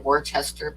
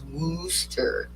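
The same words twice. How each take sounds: First: The word is said as spelled, with R sounds. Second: The word is said without any R sounds. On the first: The speaker calls it wrong. "the way it's spelled, I always want to say" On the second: The speaker calls it right. "they don't pronounce the R's. So the correct way to pronounce it"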